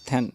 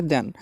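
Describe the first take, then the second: First: Then with a hard aspirated English th, like "t-hen"; wrong then. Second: Then with a soft dental d, like "den"; correct then. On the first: Teacher demonstrates the wrong way to say then. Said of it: "then नहीं पढ़ना है". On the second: Teacher models the right way to say then. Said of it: "तो देन पढ़ा जाएगा". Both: Shown as a demonstration.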